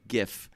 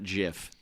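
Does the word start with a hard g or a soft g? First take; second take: hard g; soft g. First: It begins with a hard g sound. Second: It begins with a soft j sound. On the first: The speaker calls it right. "graphic g g g g GIF" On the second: The speaker calls it wrong. "not GIF. Get out of here with your with your Jiffy peanut butter"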